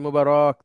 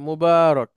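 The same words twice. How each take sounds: First: The vowel after 'b' is kept short. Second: The vowel after 'b' is drawn out long. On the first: The speaker calls it wrong. "এভাবে বলি মুবারক, তাহলে আবার ভুল সেটা" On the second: The speaker calls it right. "এভাবে একটু লম্বা করে"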